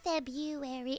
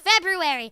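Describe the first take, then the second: First: The R after the B is left out. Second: The R after the B is clearly said. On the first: The speaker calls it wrong. "It's not February" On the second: The speaker calls it right. "There's an R there, guys!"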